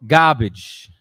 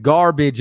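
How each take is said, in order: First: GARBAGE with the first r dropped, gah-bij; Brooklynese pronunciation. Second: Said in the usual way. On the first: Shown as a demonstration. Contrasting Brooklynese with standard speech, r-less dialect pronunciation. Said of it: "instead of garbage, it's". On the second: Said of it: "instead of garbage".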